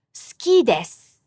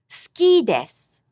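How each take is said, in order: First: "Suki desu" with the u in su silent: ski dess; unvoiced u. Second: "Suki desu" again, u silent: ski dess; unvoiced u. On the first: Teacher showing silent vowels, whispered u sounds. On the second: Teacher repeating for students, silent u sounds. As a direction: keep the u of suki and desu voiceless. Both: Shown as a demonstration. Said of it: "unvoiced vowel".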